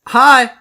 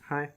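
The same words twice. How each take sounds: First: The greeting is lively and enthusiastic. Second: The greeting is flat and unenthusiastic.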